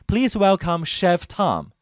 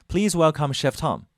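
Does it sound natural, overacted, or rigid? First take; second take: overacted; natural. First: It is said with exaggerated, overacted expression. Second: It is said naturally, like talking to friends.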